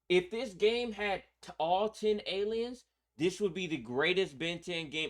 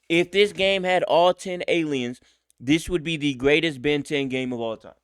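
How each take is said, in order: First: It is said at a quieter volume. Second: It is said at a louder volume.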